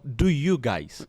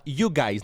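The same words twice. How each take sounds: First: Slow do you guys with do; said right. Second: You guys without do; just you guys, no do; said wrong. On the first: (pronunciado devagar com o do) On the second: (dito sem o do) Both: Shown as a demonstration. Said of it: "não".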